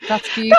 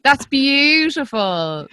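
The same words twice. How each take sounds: First: Said in the usual way. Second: Slow, high, hushed "That's beautiful." drawn out with feeling; tender awe. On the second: Real, not acted. Host savouring guest's words, slow tender awe. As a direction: let "That's beautiful." linger, slow and moved. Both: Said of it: "that made me totes emotional".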